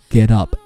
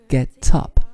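First: The t in get is voiced like d. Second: The t in get is a clear t. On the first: "因为t 浊化为了the，所以读作get up" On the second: "从读音上来说你可以把它读作get up"

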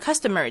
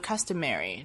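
First: It is said with a British accent. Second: It is said with an American accent.

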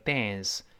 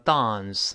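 First: It is said in an American accent. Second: It is said in a British accent. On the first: "美国人读成dance" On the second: "英国人读成dance"

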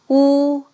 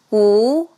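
First: The pitch stays high and level. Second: The pitch rises from mid to high. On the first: "一声平" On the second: "二声扬"

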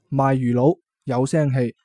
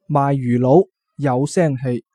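The two takes are said the same way.

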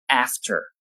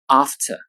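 First: It is said in an American English accent. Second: It is said in a British English accent. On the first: "美式英语中发作 after" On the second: "英式英语中发作 after"

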